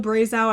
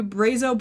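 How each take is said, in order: First: Brazow ending in OW as in cow; alternative pronunciation. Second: Brazo said BRAY-zoh; tentative pronunciation. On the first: Host unsure how you would pronounce it, alternative pronunciation. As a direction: try Brazow as BRAY-zow. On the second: Host guessing at a pattern name, tentative pronunciation. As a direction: say Brazo with a long AY and OH. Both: Shown as a demonstration. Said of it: "not exactly sure how you would pronounce this".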